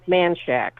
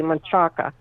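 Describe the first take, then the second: First: The name is said with a Texan pronunciation. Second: The name is said with a Spanish pronunciation. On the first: "you know how Texans pronounce it?" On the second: "the correct Spanish pronunciation pronunciation would be"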